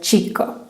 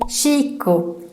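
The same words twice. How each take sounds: First: The word begins with a sharp ch sound. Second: The word begins with a soft sh sound. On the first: The speaker calls it right. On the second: The speaker calls it wrong.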